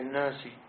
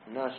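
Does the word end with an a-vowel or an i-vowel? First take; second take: i-vowel; a-vowel. First: The word ends with a short i vowel. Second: The word ends with a short a vowel. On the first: The word is in the genitive. "قالوا مضاف إليه" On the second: The word is the object of the verb. "الناس منها بالفتح"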